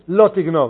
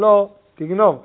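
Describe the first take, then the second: First: The two words run together without a pause. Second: There is a pause between the two words. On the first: A plain prohibition against stealing. The speaker calls it wrong. "לא אומרים לא תגנוב" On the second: It sounds like a separate statement telling one to steal. The speaker calls it right. "אלא אומרים לא תגנוב"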